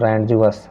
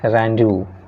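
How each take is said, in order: First: Said as spelled, with d and final s. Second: Said like 'ronzoo', with no d or s. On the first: The speaker calls it wrong. "रैंडजुअस ऐसे पढ़ेंगे तो" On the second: The speaker calls it right. "Correct pronunciation जो होता है रैंजू"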